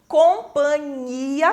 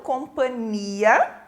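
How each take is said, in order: First: The nasal before the ending is palatal. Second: The nasal before the ending is a plain n. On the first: The speaker calls it right. "com N H" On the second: The speaker calls it wrong. "e não companhia"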